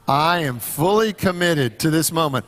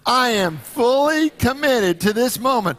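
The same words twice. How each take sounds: First: It is said casually, without much conviction. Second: It is said playfully, as if it's fun.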